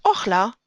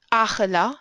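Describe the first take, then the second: First: Ochla with an o first; read as ochla. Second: Achela with a long a first; read as achela. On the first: Teacher showing the other reading of the word, o-sound ochla. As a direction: say "ochla" in two syllables, opening on o. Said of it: "Or as ochla". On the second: Teacher showing one reading of the word, long-a achela. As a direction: say "achela" in three syllables, long opening a. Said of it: "if you read this word as". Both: Shown as a demonstration.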